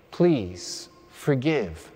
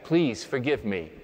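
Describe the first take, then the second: First: Very slow, drawn-out plea; slow demo for the congregation to copy; slow modelled prayer. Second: Said in the usual way. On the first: Shown as a demonstration. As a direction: stretch every word of the plea. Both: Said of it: "Let me hear you say that".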